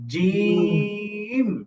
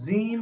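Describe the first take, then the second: First: The j sound is hard and firm. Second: The j sound is soft and loose. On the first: The speaker calls it right. "জিহ্বার মধ্যখান উপরে তালুর সাথে লাগিয়ে জিম" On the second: The speaker calls it wrong. "অনেকে জিম বলে, জিম না।"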